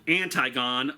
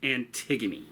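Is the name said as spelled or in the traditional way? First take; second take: as spelled; traditional. First: The name is sounded out as it is spelled. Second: The name is said in its traditional pronunciation. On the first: The speaker calls it wrong. "it looks like it's spelled Antigone" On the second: The speaker calls it right. "but it's pronounced Antigone"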